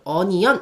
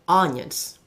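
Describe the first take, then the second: First: The stress is not on the first syllable. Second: The stress is on the first syllable. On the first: The speaker calls it wrong. "onion 하지 마시고" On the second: The speaker calls it right. "요거는 강세가 앞에 있죠"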